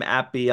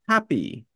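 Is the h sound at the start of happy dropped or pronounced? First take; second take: dropped; pronounced. First: The h sound at the start is dropped. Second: The h sound at the start is pronounced. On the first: "The Brits don't pronounce the H in happy or hello. They go" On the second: "we pronounce it like happy or hello"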